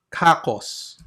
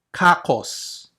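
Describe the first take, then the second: No difference in how they are said.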